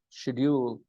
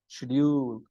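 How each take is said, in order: First: It is said with a British pronunciation. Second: The same.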